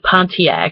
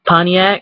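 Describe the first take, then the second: First: The T in the middle is pronounced. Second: The T in the middle is dropped. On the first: "it's actually Pontiac" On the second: "we don't pronounce the T"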